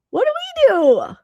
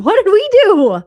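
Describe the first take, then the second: First: Very high and slow, pretend despair; slower, higher mock-scared repeat; drawn-out mock wail. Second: Much higher and louder, hammed-up plea; a loud, pretend-scared cry; overdone mock panic; mock fright. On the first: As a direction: stretch it into a whiny mock plea. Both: Mock alarm at host's stare.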